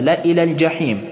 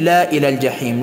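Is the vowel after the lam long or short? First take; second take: short; long. First: The vowel after the lam is kept short. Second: The vowel after the lam is drawn out long. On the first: The speaker calls it right. "بعد از حرف اللام که الف موجود است تلفظ نمیشه" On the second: The speaker calls it wrong. "نمی امکن ... نه خیر"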